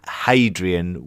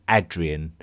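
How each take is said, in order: First: The name begins with an h sound. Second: The name begins without an h sound. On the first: This is the familiar modern name. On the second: This is closer to the original name.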